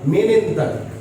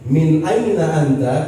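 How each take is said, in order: First: The words are run together and shortened. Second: Each word is said in full, separately. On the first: This is how Arabs say it in everyday speech. "Dia bilang" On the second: This is the form read in textbooks. "kita baca di sini"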